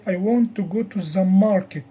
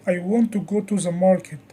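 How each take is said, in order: First: Market emphasised, not another place; stress on MARKET. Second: Want emphasised to show real desire; stress on WANT. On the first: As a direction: put the weight on market at the end. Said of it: "it means not another place". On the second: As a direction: lean on the word want. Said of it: "it means I really want it". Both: Shown as a demonstration.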